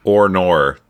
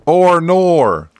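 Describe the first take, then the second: First: Mild mock Aussie "oh no"; mock Australian accent. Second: High, loud mock Aussie "oh no"; hammed-up Australian cry; mock Australian accent. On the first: Co-host trying the Aussie drawl, mild mock Australian accent. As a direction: try out an Australian "oh no". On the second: Co-host topping the joke, hammed-up Australian accent. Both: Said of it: "pretty much just how we sound".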